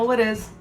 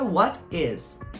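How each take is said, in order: First: The two words run together as one sound. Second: The two words are said separately and clearly. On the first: "chega alguém e fala what is" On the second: "what é what, is é is, what is é what is"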